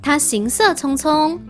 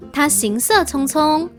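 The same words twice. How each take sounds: The two takes are said the same way.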